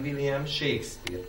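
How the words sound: The stress falls on the family name Shakespeare. The speaker calls it right. "hanem William Shakespeare, tehát a családneve a hangsúlyos"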